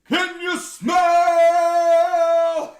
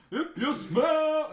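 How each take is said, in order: First: Booming, drawn-out, sung catchphrase, much higher and louder; The Rock's catchphrase. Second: Higher, louder, slowed catchphrase through a laugh; mock the arena call while cracking up; The Rock's catchphrase. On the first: Retold or imitated. Crowd hears The Rock's return, booming sung call. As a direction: belt it like an arena entrance call, very slowly. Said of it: "And then you hear". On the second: Retelling The Rock's entrance, laughing mock catchphrase. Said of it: "you hear the council line".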